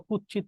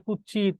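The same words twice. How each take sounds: First: Said in the usual way. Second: কুৎসিত softened to kuch-chit; colloquial distorted pronunciation. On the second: Shown as a demonstration. Teacher repeating examples of altered words, কুৎসিত as kuch-chit. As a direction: run the ts of কুৎসিত into a doubled ch. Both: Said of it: "বিকৃত উচ্চারণ".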